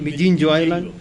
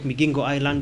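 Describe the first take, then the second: First: The island name is pronounced Mijinjo. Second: The island name is pronounced Migingo. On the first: This is the Ugandan way of saying the name. "they were talking about Mijinjo" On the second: This is the Kenyan way of saying the name. "I was talking about Migingo Island"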